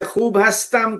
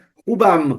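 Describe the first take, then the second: First: The verb is said as a separate full word. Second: The verb is shortened and joined onto the word. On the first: This is the formal written form. "के बजाय" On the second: This is the informal spoken form. "आप कहें खूबम"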